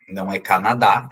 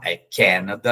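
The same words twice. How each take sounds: First: "Canadá" said the Portuguese way, stress on the last syllable; Portuguese stress on the end of "Canadá". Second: "Canada" stressed on the first syllable, ken-a-da; English "Canada", first syllable strong. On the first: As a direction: Brazilian "Canadá" with final stress. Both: Shown as a demonstration.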